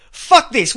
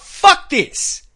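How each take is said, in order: First: Said in the usual way. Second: Imagined outburst. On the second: Retold or imitated. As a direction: punch it out hard. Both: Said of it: "Instead of coming out and saying".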